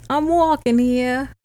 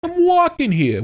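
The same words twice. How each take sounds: First: Slow mock New York accent. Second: Much higher, louder mock New York accent. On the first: Host hamming up a mock New York accent. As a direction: lean into a New York "I'm walking here". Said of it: "Partly New York". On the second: Co-host imitating the host's New York side. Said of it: "That's how it would go".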